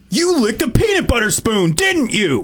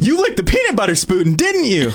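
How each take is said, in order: First: It is said in an angry way. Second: It is said in an excited way.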